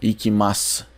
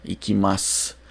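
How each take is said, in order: No difference in how they are said.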